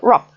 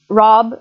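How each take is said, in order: First: The final consonant is voiceless. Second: The final consonant is voiced.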